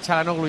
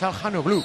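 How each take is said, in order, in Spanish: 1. La h del medio es muda. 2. La h del medio se pronuncia. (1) "Le llamamos Çalhanoğlu porque alguien debió llamarle Çalhanoğlu ya" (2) "me dijo que era Çalhanoğlu"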